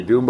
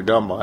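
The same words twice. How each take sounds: First: DUMBA said as DOOM-ba, with an "oo"; first pronunciation option. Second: DUMBA said as DUM-ba, short "uh"; second pronunciation option. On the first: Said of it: "Let's clear this up right away". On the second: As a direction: say DUMBA like "dumb-uh". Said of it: "and he said Dumba". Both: Retold or imitated.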